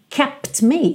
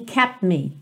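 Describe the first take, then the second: First: The T sound is clearly released before me. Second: The T is dropped, lips move straight to M. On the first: The speaker calls it wrong. "Também você não ouve kept me" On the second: The speaker calls it right. "e sim kept me"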